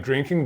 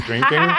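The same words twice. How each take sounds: First: Said in the usual way. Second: "drinking" leaned on, louder and lower; low, loaded emphasis on "drinking"; suggestive stress on drinking. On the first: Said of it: "I could say, like, drinking". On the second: Shown as a demonstration. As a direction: hit "drinking" knowingly, as if it means booze. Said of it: "makes it sound like we were, like, drinking".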